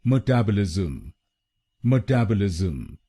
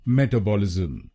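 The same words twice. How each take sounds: First: metabolism said mə-TAB-ə-lizm, weight on टैब; correct stress on TAB. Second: metabolism said as ME-ta-bolism, weight on the first syllables Meta; wrong stress on META. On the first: Teacher giving the right form after the wrong one, stress on TAB. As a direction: put the stress on the second syllable टैब. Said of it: "इसको बोलिए". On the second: Teacher showing the wrong way, stress on META. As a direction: push the stress onto Meta, the common Indian mistake. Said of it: "गलत pronunciation में हम एमईटीए पर जोर डालते हैं". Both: Shown as a demonstration.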